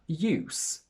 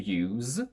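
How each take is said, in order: First: The final sound is a voiceless s. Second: The final sound is a voiced z. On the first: It is a noun. "if it's a noun or an adjective, we use the voiceless S" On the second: It is a verb. "if it's a verb, we use a voiced Z"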